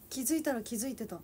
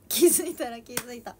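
First: Said in the usual way. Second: 気づいたら気づいた said much louder, punching 気; a loud slip before the correction; botched first try. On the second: Shown as a demonstration. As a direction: blurt out 気づいたら気づいた loudly, stressing 気.

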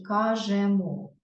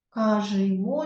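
First: "кажемо" drawn out with an open е; clear е vowel. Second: "Кажемо" drawn out with и in the middle syllable; и-like ending vowel. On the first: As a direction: say "кажемо" slowly as кажЕмо. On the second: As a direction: say "Кажемо" slowly as кажИмо. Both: Shown as a demonstration.

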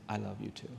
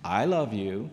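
First: Soft, low retold reply; flawless, in the ear. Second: Grudging imitation of a boy's forced affection, pitched up on "love"; insincere. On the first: Little boy hugging back, softly in his ear. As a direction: say "love you too" softly and smoothly, close to the ear. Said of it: "said flawlessly in my ear". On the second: Boy obeying his mother to another child, insincere. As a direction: say "love" as if made to. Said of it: "as insincerely as I possibly could".

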